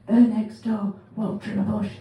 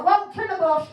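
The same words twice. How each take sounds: First: Said in the usual way. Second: Caller voice. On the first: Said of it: "she's just said". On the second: Retold or imitated.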